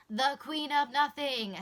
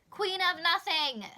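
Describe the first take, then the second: First: Loud, showy title call in a put-on voice; dramatic announcer. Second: Loud, high, drawn-out cry of the title; excited shout. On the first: Repeating the book title to the camera, hammed-up announcer. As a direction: proclaim it like a movie trailer. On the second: Real, not acted. Answering the anticipated-release question, shouting the title. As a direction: announce it like you can't wait.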